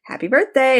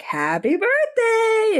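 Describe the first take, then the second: First: Said in the usual way. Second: High, slow, drawn-out sing-song; sing-song greeting. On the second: Retold or imitated. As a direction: stretch "Happy birthday" way up high and slow. [name] greets Charlie, two takes.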